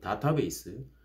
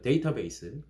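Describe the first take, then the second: First: The first syllable is dah, then ta. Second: The first syllable is day, then ta. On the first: This is how people say it locally. "그럼 여긴 다타베이스" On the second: This is how Koreans usually say it. "우리 쉽게 뭐, 예를 들어 데이터베이스, 이렇게 말하죠"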